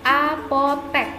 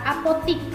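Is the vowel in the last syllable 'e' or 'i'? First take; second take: e; i. First: The last syllable has an 'e' vowel. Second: The last syllable has an 'i' vowel. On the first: The speaker calls it right. "yang benar adalah apotek" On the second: The speaker calls it wrong. "Sebenarnya itu salah"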